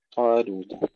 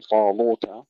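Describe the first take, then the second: First: طالوت with thin, clear ل after heavy طا; light laam. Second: ل of طالوت wrongly thickened like the طا; wrong heavy laam. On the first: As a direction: recite طالوت correctly, keeping لو light. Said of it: "لو مرققة". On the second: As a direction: say طالوت faultily with a dark, heavy ل. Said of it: "لا نقول طالوت". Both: Shown as a demonstration.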